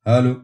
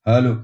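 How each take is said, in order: No difference in how they are said.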